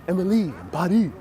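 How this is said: It is said in a Parisian French accent. The speaker calls it right. "the typical Parisian accent"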